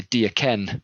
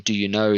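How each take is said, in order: First: "Do you ken?" in Scots, "you" reduced to "ya"; Scottish dialect. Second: Said in the usual way. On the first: Shown as a demonstration. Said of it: "the Scottish dialect". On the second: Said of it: "rather than saying".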